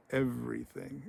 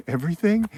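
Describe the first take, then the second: First: Soft, deliberate, haunting answer; menacing confirmation. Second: Higher, louder, rising in disbelief; incredulous question. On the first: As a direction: confirm it quietly and ominously. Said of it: "has this wonderfully deep voice". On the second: Guy questions the stake, not understanding. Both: Retold or imitated.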